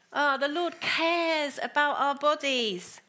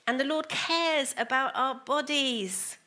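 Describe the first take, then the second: First: Slow, lingering repeat leaning on "cares"; savoured repeat. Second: Said in the usual way. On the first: Shown as a demonstration. Preacher repeating the verse to the congregation, lingering on "cares". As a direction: draw out "cares" in "the Lord cares about our bodies" to let it land.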